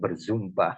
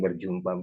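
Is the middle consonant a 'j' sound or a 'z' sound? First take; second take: z sound; j sound. First: The middle consonant is a 'z' sound. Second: The middle consonant is a 'j' sound. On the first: "berzumpa katanya kan" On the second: "bukan berjumpa"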